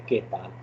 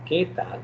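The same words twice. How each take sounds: First: Said in the usual way. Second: "¿Qué tal?" with "Qué" pitched up and stressed; stressed accented "qué". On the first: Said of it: "the other way is to say". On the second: Shown as a demonstration. Teacher showing students the accent, "¿Qué tal?" with raised, stressed "Qué". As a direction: lift "Qué" high, then fall on "tal". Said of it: "a little bit stress on the last part".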